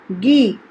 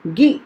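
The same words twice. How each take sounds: First: गी with a long drawn-out ii; long ii demo. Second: गी clipped with a short i sound; short i demo. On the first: Teacher shows pupils the long ii in गी. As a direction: stretch the vowel in गी. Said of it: "आवाज़ को भी बड़ा करती है, लंबा करती है". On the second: Teacher shows pupils the short i in गी. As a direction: keep the vowel in गी short. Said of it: "छोटा करके बोलना होता है". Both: Shown as a demonstration.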